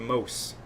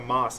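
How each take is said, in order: First: The word is said like the end of Cosmos. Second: The word is said like the word moss. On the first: The speaker calls it right. "It's a Mos" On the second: The speaker calls it wrong. "It's not a Moss"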